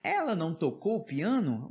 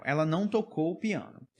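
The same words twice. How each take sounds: First: "Ela não tocou o piano" asked, tune lifting and turning on "piano"; yes-no question tune on "piano"; question intonation. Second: "Ela não tocou o piano" stated with a fall on "piano"; falling close on "piano"; statement intonation. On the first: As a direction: ask it by melody alone, "piano" questioned. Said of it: "na hora de eu fazer a pergunta". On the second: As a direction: state it plainly, "piano" going down. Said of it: "que mudou a entonação". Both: Shown as a demonstration.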